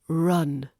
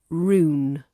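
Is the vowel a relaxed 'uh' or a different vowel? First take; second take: relaxed uh; different vowel. First: The vowel is a relaxed uh sound. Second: The vowel is not a relaxed uh sound. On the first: The speaker calls it right. "the uh in run is the relaxed uh sound" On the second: The speaker calls it wrong. "not rune"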